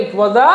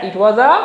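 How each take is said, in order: Both takes have the same delivery.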